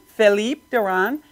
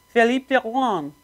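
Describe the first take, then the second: First: The name is said with an American accent. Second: The name is said with a French accent.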